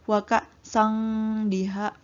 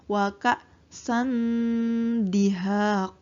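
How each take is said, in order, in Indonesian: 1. Bunyi sengau terdengar seperti 'ng' sebelum d. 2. Bunyi sengau terdengar seperti 'n' sebelum d. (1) "jadi tidak semua ikhfa itu dibaca eng. Ya, jadi bukan" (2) "tapi ... lidah kita sudah mempersiapkan untuk huruf dal"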